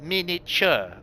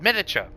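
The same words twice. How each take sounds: First: The word is broken into separate distinct syllables. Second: The word is run together smoothly as one unit. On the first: "Like pronounced in stages" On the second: "Just like you're saying a word"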